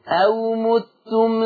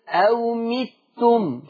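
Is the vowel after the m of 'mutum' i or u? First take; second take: u; i. First: The m is followed by an u vowel. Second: The m is followed by an i vowel. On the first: "حفص عن عاصم بيضم ميم متم" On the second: "شوفوا الكسر بتاع الميم"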